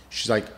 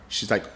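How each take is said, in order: No difference in how they are said.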